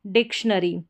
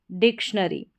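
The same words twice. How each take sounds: The two takes are said the same way.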